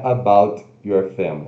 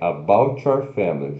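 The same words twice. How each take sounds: First: The T and Y sounds stay separate. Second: The T and Y blend into one sound. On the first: The speaker calls it wrong. "Não é about your family" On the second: The speaker calls it right. "é about your family. Junta tudo"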